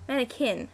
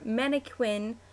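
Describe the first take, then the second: First: "Mannequin" said as MAN-uh-kin; without a W sound. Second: "Mannequin" said as MAN-uh-kwin; with a W sound. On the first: Correcting a word on the list, "Mannequin" with a plain k. Alternate readings in pronunciation list. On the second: Reading an accent-tag word list, "Mannequin" with a kw sound. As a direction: pronounce the "qu" in "Mannequin" as kw. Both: Shown as a demonstration.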